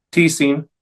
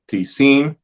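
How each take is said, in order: First: "tisin" as TI-sin; stress on first syllable. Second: "Tisin" as ti-SIN; stress on last syllable. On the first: Teacher reciting neuter interrogatives, TI-sin stressed up front. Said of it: "la primera sílaba". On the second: Teacher reciting neuter indefinites, ti-SIN stressed last. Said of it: "en la última sílaba". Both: Shown as a demonstration.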